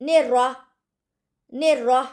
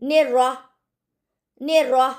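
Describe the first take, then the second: Both takes have the same delivery.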